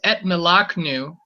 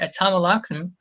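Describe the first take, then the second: First: No vowel is heard between the t and m. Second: An a vowel is heard between the t and m. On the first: The speaker calls it right. "This is why this right here is etmelaknu" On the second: The speaker calls it wrong. "You don't have to say"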